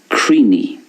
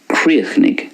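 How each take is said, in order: First: It is said in an Ulster Irish accent. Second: It is said in a Munster Irish accent. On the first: "And in Ulster" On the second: "I'm pronouncing it the way it's pronounced in Munster"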